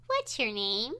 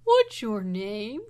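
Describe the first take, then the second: First: Said in the usual way. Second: Slow, loud, drawn-out monster voice; dinosaur voice. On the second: Acted. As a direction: stretch it out like a big dinosaur. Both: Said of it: "the boy".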